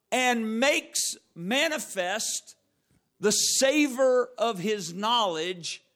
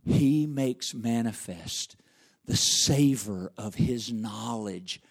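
First: Slow, drawn-out scripture reading; slow preaching. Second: Deliberately slow, holding back; slow and low. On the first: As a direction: stretch every word of the verse. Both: Shown as a demonstration. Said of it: "I'm really trying to go slow".

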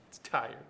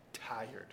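First: Tired said firmly at normal level; stress on tired. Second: Almost breathed, much softer; soft tired. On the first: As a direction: land plainly on tired. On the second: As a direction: let the word tired sink away softly. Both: Shown as a demonstration.

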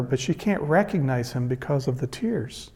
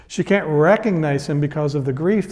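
First: Hushed. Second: Said in the usual way. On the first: Shown as a demonstration.

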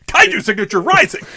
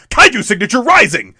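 First: Loud, high toy-commercial shout; gruff tinny action figure. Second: Loud, high action-figure line; gruff tinny action figure. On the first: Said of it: "toy commercial kind of line". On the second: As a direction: bark it like a toy commercial. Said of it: "It just sounds like an action figure, like, toy". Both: Retold or imitated.

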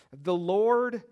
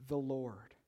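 First: The Lord called out high and loud; emphatic proclamation. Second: "the Lord" repeated low and soft; soft echo. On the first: Pastor proclaiming God's name to the congregation, loud and ringing. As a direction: ring out "The Lord" like a herald. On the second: Pastor echoing God's name to the congregation, hushed. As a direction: let the second "the Lord" fall away. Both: Shown as a demonstration.

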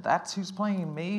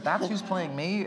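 First: Light Southern drawl, slow and stretched; Southern accent. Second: Light Southern drawl on a repeat, slow; mild Southern accent again, drawn out. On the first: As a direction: mimic her in a mild Southern accent, dragging the words. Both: Retold or imitated. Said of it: "I'm playing her Southern right now".

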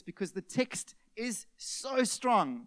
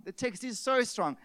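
First: "so strong" drawn out slowly for weight; slow weighty emphasis on "so strong"; emphatic slow. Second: Said in the usual way. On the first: Shown as a demonstration. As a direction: lean hard on "strong", very slow.

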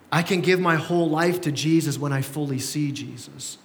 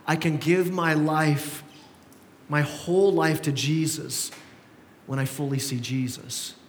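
First: Said in the usual way. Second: Slow, deliberate statement of the point; the key point, said slowly and weighted; slow emphatic point. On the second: Shown as a demonstration. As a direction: lay each phrase down slowly. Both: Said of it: "second and last point".

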